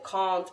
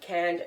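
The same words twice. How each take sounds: First: It is said in a British accent. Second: It is said in an American accent. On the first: "I would say" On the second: "and not"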